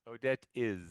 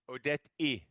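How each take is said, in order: First: The word 'is' ends with a clear z sound. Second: The word 'is' is said without its final z. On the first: The speaker calls it right. "No, Odette is" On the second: The speaker calls it wrong. "don't say I. Many Vietnamese speakers say I"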